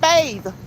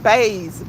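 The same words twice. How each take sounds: First: The word ends with a th sound. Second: The word ends with a z sound. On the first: "not bathe" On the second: "Like grandma and them said, bathe, B A Z E"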